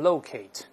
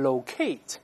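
First: The word is said the American way. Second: The word is said the British way. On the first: "美式中一般读成locate" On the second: "英国人一般读成locate"

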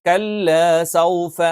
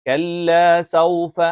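Both takes have the same delivery.

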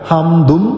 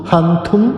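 The two takes are said the same way.

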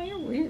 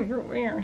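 First: It is said in a warm, friendly tone. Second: It is said in a mean, insulting tone. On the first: The speaker means it as a compliment. "He just was like" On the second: The speaker is putting the other person down. "he didn't say it in a bad way"

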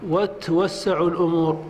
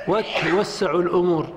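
No difference in how they are said.

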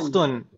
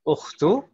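First: The word ends with an added n sound. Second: The word ends on a vowel, with no final n. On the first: The noun stands alone, not tied to a possessor. The speaker calls it wrong. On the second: The noun is tied to the next word as its possessor. The speaker calls it right.

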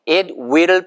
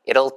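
First: Both words are said fully and separately. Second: The words are run together into one syllable.

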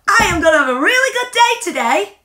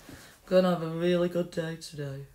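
First: The voice sounds firm and confident. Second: The voice sounds hesitant and unsure. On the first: The speaker is sure they will have a good day. The speaker calls it right. "you're saying it with confidence" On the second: The speaker doubts they will have a good day. The speaker calls it wrong. "you're not saying it with much confidence"

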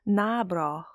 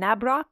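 First: The word ends without any K sound. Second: The word ends with a clear K sound. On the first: The speaker calls it right. "it is actually pronounced Nabro. The K is kind of silent" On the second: The speaker calls it wrong. "what I called at the time"

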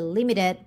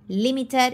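First: The t is a soft, r-like flap. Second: The t is a clear, crisp t sound.

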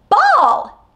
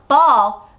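First: The word is said with a distinct, marked intonation. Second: The word is said with plain, flat intonation. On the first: It signals that it is the listener's turn to request. "you can hear my intonation is a little bit different" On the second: It simply names the object. "instead of just saying get the ball or ball"

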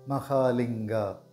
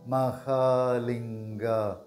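First: It is said at normal speed. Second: It is said slowly.

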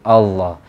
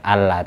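First: The L is heavy and thick. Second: The L is light and thin. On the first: It glorifies and honours the name of God. The speaker calls it right. "Kok dibaca tebal" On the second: It sounds as if God is being belittled. The speaker calls it wrong. "kok ndak dibaca Allah"

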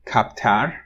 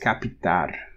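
First: The p and t are joined with no vowel. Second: An extra i vowel separates p and t. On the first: The speaker calls it wrong. "which you would assume is captar" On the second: The speaker calls it right. "but it's capitar"

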